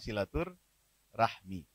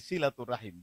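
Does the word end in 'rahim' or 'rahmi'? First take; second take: rahmi; rahim. First: The word ends with the sounds 'rahmi'. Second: The word ends with the sounds 'rahim'. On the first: The speaker calls it wrong. "bukan silatur rahmi" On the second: The speaker calls it right. "Jadi silaturrahim bukan"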